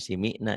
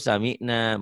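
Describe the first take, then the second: First: The first vowel is an i sound. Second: The first vowel is an a sound. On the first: The speaker calls it wrong. "bukan simina" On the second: The speaker calls it right. "Kalau samina"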